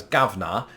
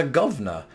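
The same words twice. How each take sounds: First: "gavna" ending in an open "ah", no R. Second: Said in the usual way. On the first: Shown as a demonstration. Teacher showing how British people say boss, "gavna" without any R. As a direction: say "gavna" Cockney-style, dropping the final R. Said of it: "No R on the end".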